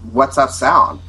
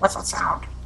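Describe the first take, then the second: First: It is said in a plain, normal voice. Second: It is said in a mocking, exaggerated voice. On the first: Someone asks a genuine question. "as we would say" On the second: Someone mimics the question to taunt. "almost like mocking us... in a really mawkish voice"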